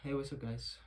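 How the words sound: It sounds sighing and downcast.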